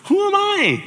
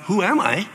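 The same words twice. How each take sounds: First: Very high, loud squeak; squeaky high. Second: Said in the usual way. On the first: Shown as a demonstration. Moses asking God in a squeaky panicked voice. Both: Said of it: "Not, "Who am I?".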